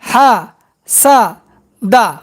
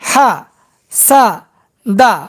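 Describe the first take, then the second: First: The syllables are said separately with breaks. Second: The syllables are said separately with breaks.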